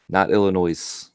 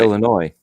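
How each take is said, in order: First: The word ends in a 'noise' sound. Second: The word ends in a 'noy' sound. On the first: The speaker calls it wrong. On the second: The speaker calls it right.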